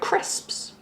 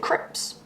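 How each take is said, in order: First: The s before the final p is pronounced. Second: The s before the final p is dropped. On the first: This is the speaker's own way of saying it. "I'd say the word crisps" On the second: This is how people in Wales said it. "They'd say crips, So they'd miss out letters"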